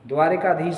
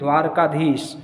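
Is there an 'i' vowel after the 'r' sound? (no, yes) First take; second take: yes; no. First: An 'i' vowel comes between the 'r' and 'k'. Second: The 'r' goes straight into the 'k'. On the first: The speaker calls it wrong. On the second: The speaker calls it right.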